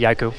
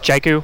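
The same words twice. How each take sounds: First: The name is pronounced the Finnish way. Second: The name is pronounced the English way. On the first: "From Finland, they say" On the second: "If you're speaking English"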